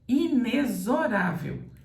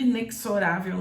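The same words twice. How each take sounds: First: The x is said with a z sound. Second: The x is said without a z sound. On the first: The speaker calls it right. "esse X aqui deve ser pronunciado com som de Z" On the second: The speaker calls it wrong. "eu vejo muita gente boa falando inexorável"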